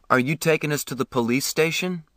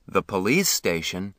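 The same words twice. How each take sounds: First: Said in the usual way. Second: A mild surprised echo rising at the end; man lightly surprised at the boy's question; mildly surprised. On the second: A narrator's reading. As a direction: repeat it back, a little taken aback. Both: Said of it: "It was his turn to be surprised".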